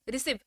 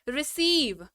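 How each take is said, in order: First: The vowel is said quickly without holding. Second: The long vowel is held and drawn out. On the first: The speaker calls it wrong. "Receive ऐसे नहीं बोलते हैं" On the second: The speaker calls it right. "आप इसको बोलने में जल्दी नहीं करते हैं"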